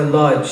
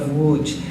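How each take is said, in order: First: The name is said with English-style pronunciation. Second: The name is said with Polish pronunciation. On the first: "some of you might be familiar with it as Lodz" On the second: "I use the Polish pronunciation"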